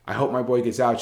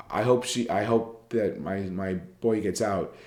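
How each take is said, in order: First: Quicker, lightly upbeat hopeful delivery; happy example quote. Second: Slow, halting, lightly sad delivery; sad example quote. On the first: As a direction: lift it a little, mildly encouraging. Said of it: "she said, hugging and smiling". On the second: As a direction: read it slowly, with understated sorrow. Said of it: "after crying and with her head down". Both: Shown as a demonstration.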